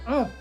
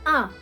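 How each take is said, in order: First: The vowel sounds like a rounded 'oh'. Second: The vowel sounds like an open 'ah'. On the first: The speaker calls it wrong. "I've been saying, oh, this whole time" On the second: The speaker calls it right. "and it's ah"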